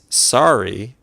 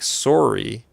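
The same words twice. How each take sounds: First: It is said in an American accent. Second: It is said in a Canadian accent. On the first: It is the ordinary word. "like uh, an American would say it" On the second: It is the character's name. "like a Canadian would say it"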